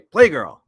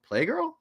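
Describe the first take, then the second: First: It is said firmly, like a definite answer. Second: It is said hesitantly, like an unsure question.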